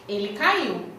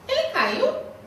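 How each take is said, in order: First: It is said as a plain, flat statement. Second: It is said as a question.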